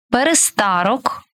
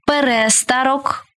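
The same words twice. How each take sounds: First: ПереСТАрок, stressed on СТА; stress on third syllable. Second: ПеРЕстарок, stressed on РЕ; stress on second syllable. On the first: Teacher showing variant stresses to student, stress on СТА in перестарок. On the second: Teacher showing variant stresses to student, stress on РЕ in перестарок. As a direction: punch РЕ in перестарок. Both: Shown as a demonstration. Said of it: "Такий наголос ще називають варіантним".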